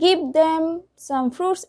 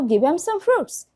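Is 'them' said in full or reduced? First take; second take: full; reduced. First: The word 'them' is said in full. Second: The word 'them' is reduced, losing sounds.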